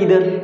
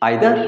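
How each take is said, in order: First: The first vowel sounds like 'ee'. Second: The first vowel sounds like 'eye'. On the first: "উভয় উচ্চারণই correct" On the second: "উভয় উচ্চারণই correct"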